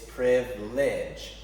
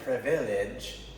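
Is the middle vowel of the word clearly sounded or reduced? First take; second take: reduced; clearly sounded. First: The middle vowel is reduced and barely heard. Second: The middle vowel is clearly sounded. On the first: The speaker calls it right. "you don't hear the I" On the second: The speaker calls it wrong. "It isn't privilege"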